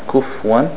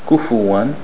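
First: No vowel comes between the f and w. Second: A u vowel comes between the f and w. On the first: The speaker calls it wrong. "Dhamma on the fat, not kufwan" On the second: The speaker calls it right. "Dhamma on the fat"

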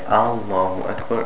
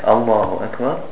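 First: The opening vowel is drawn out long. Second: The opening vowel is kept short. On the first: It asks whether God is the greatest. The speaker calls it wrong. "when they made the Aleph long" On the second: It states that God is the greatest. The speaker calls it right. "With the shidda on the hamza"

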